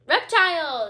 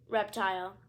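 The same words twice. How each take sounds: First: Reptile! yelled high and very loud; queen yelling Reptile! as she throws the book. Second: Said in the usual way. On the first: Acted. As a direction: hurl Reptile! like an insult. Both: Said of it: "she yelled".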